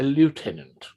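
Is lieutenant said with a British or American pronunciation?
American. It is said with an American pronunciation. The speaker calls it wrong. "not what you Americans would call a lieutenant"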